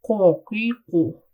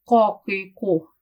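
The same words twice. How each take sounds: First: "ko, ki, ko" with lips rounded forward; lips rolled up. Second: "ko, ki, ko" from the back of the tongue, lips relaxed; lips not rounded. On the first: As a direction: roll the lips up on "ko, ki, ko". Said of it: "Now let's roll up the lips". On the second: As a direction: keep the lips flat on "ko, ki, ko". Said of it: "from the back part of my tongue". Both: Shown as a demonstration.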